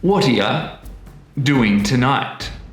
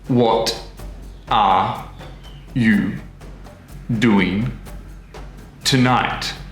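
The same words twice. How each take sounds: First: Words link together and 'you' weakens to 'ya'. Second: Each word is said separately and in full. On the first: "words are starting to come together... the weak form of you, which is y" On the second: "the words are all in their individual pots... in their perfect citation form"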